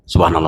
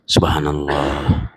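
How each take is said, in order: First: It is said very quickly, rattled off. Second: It is said slowly and deliberately. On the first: The speaker calls it wrong. "kalau berzikir itu cepat sekali" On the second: The speaker calls it right. "zikir itu pelan-pelan"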